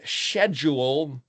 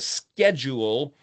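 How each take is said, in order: First: It is said in a British accent. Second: It is said in an American accent. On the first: "the Brits saying schedule" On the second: "the Americans saying schedule"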